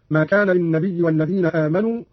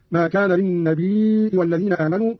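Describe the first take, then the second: First: Said in the usual way. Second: "للنبي" with long i then glottal stop, lin-nabii'i; Qalun hamza reading. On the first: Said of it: "قرأ قالون بهمز الياء". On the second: Shown as a demonstration. Teacher demonstrates hamza, "للنبي" read lin-nabii'i. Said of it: "بهمز الياء هكذا".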